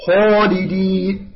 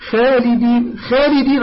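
First: خالدين slowly, with a dark "khaw" opening; careful recitation demo of heavy خالدين; heavy raised kha. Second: خالدين with a thin "khay" opening; خالدين said light, unraised and front; wrong light kha. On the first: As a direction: stretch خالدين with a full heavy خ. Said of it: "لأنها مستعلية". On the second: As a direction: mimic the error, flattened خ in خالدين. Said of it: "بعضهم يقول". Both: Shown as a demonstration.

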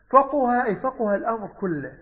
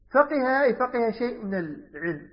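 First: فقه as "faquha", u after q; damma on the qaf. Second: فقه as "faqiha", i after q; kasra on the qaf. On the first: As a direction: say فقه with a short u in the middle. (فقه بضم القاف) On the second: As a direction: say فقه with a short i in the middle. (فقه بكسر القاف) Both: Shown as a demonstration. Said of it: "فقه وفقه".

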